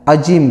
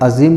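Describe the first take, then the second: First: The middle consonant is a j sound. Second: The middle consonant is a z sound. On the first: Mute or dumb. The speaker calls it wrong. "कुछ लोग ज़ा के बजाय जीम अदा करते हैं" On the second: Great and majestic. The speaker calls it right. "अज़ीम के ज़ा को खूब एहतियात से अदा करें"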